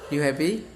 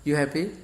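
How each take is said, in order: Both takes have the same delivery.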